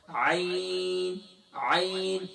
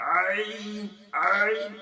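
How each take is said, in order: First: "عین" drawn out smoothly from mid-throat; long, easy held "عین"; normal, beautiful ain. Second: "عین" strained with too much pressure on the throat; "عین" pushed forcefully out of the throat; overforced ain. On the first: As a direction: model "عین" without forcing the throat. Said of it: "normal طریقے سے پڑھ سکتے ہیں". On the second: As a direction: exaggerate the mistake, squeezing "عین" hard. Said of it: "گلے پہ بہت زیادہ زور". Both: Shown as a demonstration.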